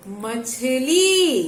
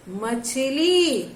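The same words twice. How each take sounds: First: मछली drawn out slowly, syllable by syllable; slow clear pronunciation. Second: मछली spoken slowly, each syllable clear; slow clear pronunciation. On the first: Teacher models मछली slowly for young pupils. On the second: Teacher repeats मछली slowly for pupils to copy. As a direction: model मछली slowly to the class. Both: Shown as a demonstration. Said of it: "अब इसका उच्चारण कीजिए".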